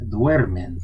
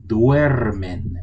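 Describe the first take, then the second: First: Said in the usual way. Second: Duermen louder, leaning on the duer syllable; stressed duermen. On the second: Shown as a demonstration. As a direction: hit duer in duermen with extra weight. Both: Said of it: "It gets the stress".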